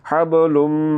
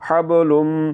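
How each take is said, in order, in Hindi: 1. यह लंबी, नासिक्य म ध्वनि पर खत्म होता है। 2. यह लंबी, नासिक्य म ध्वनि पर खत्म होता है।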